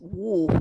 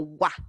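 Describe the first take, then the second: First: The sound is said with closed, rounded lips. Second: The sound is said with an open mouth. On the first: The speaker calls it right. "tiene que cerrar un poco su boca y luego haga así como wu" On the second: The speaker calls it wrong. "No es como wa"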